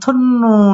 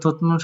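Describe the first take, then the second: First: The first syllable ends in an n sound. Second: The first syllable ends in a t sound. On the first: The speaker calls it right. "যদি আমরা এটাকে উচ্চারণ করি থুন্নুন" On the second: The speaker calls it wrong. "থুত নুন সঠিক উচ্চারণ না"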